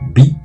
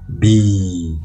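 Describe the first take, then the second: First: The vowel is short. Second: The vowel is long. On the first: "ça fait bi en bref" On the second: "et en long"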